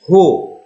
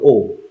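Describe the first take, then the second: First: The vowel starts with an h sound. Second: The vowel starts with no breath sound. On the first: The speaker calls it right. "tapi ho" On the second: The speaker calls it wrong. "dibaca bukan O"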